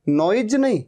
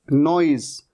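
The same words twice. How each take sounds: First: Said in the usual way. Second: नॉइज ending in a buzzing z; z in noise. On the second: Shown as a demonstration. Teacher modelling noise with a z ending. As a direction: end नॉइज on a clear z.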